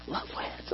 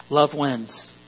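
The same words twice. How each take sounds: First: Breathy whisper. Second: Dry sarcastic tone. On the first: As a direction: whisper it under your breath. Repeats the phrase, hushed. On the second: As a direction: say it with an eye roll. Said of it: "you know that's sarcastic". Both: Shown as a demonstration.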